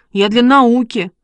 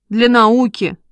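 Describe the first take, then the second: First: Mildly hurt self-defence; offended. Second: Lightly sceptical echo; wry mockery. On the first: Boy defending himself to his mother, offended. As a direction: insist on it, a touch aggrieved. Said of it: "обиделся Шишкин". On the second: Mother echoing her son's excuse, wryly amused. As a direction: repeat it with a touch of irony. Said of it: "усмехнулась мама". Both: A narrator's reading.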